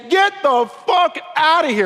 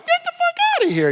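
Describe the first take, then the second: First: It sounds angry and serious. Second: It sounds playful and joking.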